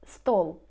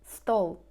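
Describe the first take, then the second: No difference in how they are said.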